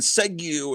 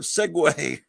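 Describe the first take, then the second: First: The word ends with an 'oo' sound. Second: The word ends with an 'ay' sound. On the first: The speaker calls it wrong. "saying Segu instead of Segway" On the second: The speaker calls it right. "instead of Segway"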